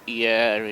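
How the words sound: The name is pronounced with French sounds. "but Hyères in French"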